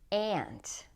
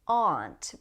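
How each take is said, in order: First: The vowel sounds like the one in cat. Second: The vowel sounds like the one in law. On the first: "with the a sound, as in cat" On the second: "aunt with ah, as in law"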